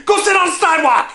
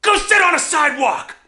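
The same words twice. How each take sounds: First: High, fast shouted insult; louder taunting yell. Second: Taunting yell. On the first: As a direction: yell it harder than the first time. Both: Retold or imitated. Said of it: "yell things at me".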